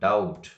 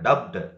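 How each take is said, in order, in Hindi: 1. इस शब्द में b साइलेंट है। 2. इस शब्द में b की आवाज़ निकलती है। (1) "we have to pronounce ಡೌಟ್" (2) "not ಡಬ್ಡ್"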